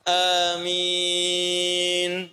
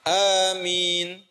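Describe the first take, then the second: First: The final vowel is held moderately long. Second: The final vowel is held briefly. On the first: "Empat harakat" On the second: "Dua harokat"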